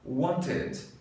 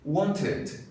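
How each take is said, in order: No difference in how they are said.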